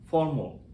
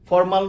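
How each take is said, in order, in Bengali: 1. শেষ শব্দাংশটি সংকুচিত ও দুর্বল। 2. শেষ শব্দাংশের স্বরটি পূর্ণ। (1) "উচ্চারণ হবে ফর্মাল" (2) "ফর্মাল নয়"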